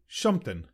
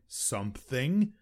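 First: The word is slurred with blurred sounds. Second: The word is pronounced clearly. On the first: "they might say shumpton" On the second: "Instead of saying something"

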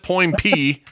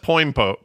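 First: The name ends with a 'pee' sound. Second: The name ends with a 'pose' sound. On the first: The speaker calls it right. "That's how you say it" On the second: The speaker calls it wrong.

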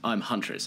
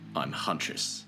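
First: The line is said in a lighter manner. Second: The line is said in a very serious manner.

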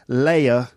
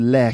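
First: The vowel is a full two-part glide. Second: The vowel is flattened into one sound. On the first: "I'm thinking words like shower, layer" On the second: "And I made a lair cake"

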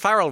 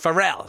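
First: It is said like the surname Farrell. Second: It is said unlike the surname Farrell. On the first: The speaker calls it wrong. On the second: The speaker calls it right.

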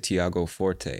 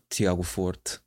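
First: The name is said with American English pronunciation. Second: The name is said with Portuguese-style pronunciation. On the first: This is how English speakers from the US say it. "Americans, I think, would say Tiago Forte" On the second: This is how a speaker of the name's language says it. "I would say Tiago Forte"

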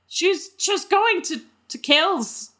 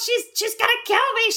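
First: It is said at a slow pace. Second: It is said at a quick pace.

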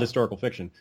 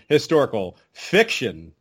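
First: The phrase is said with neutral stress. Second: The stress falls strongly on the second word. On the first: The book is a genuine historical novel. "it shouldn't be called" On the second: The book is mostly made up. "change the emphasis"

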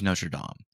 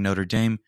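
First: It is said with a French pronunciation. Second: It is said with an anglicized pronunciation. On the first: The speaker calls it right. "It is Notre Dame. Be French about it" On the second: The speaker calls it wrong. "To all of you who are saying Notre Dame, you are wrong"

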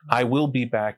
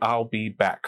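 First: It is said in full with four syllables. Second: It is contracted into three syllables. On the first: It sounds perfunctory and gentlemanly. The speaker calls it wrong. "It sounds perfunctory, gentlemanly or whatever" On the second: It sounds punchy and rhythmic. The speaker calls it right.

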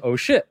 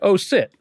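First: The word starts with an sh sound. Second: The word starts with an s sound. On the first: "Instead of saying" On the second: "someone might say"

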